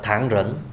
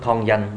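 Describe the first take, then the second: First: It is said with a Mandarin pronunciation. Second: It is said with a Cantonese pronunciation.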